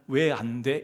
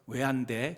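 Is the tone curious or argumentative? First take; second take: argumentative; curious. First: It sounds like a protesting, argumentative challenge. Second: It sounds like a curious, genuine question.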